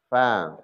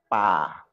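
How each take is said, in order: First: It begins with teeth touching the lower lip. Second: It begins with both lips closing together. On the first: The speaker calls it right. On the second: The speaker calls it wrong.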